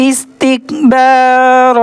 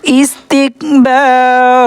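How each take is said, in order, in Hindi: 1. यह रुकता है, लंबे स्वर पर खत्म होता है। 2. यह रुकता है, लंबे स्वर पर खत्म होता है।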